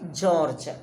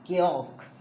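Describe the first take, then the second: First: The name is said like English George. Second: The name is said as Georg. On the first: The speaker calls it wrong. "don't say George" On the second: The speaker calls it right. "What you have to say? Georg"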